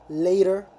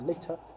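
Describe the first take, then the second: First: It is said with an American accent. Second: It is said with a British accent. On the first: "American English, later, later" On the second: "British English, later or later"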